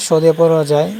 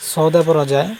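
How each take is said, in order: Both takes have the same delivery.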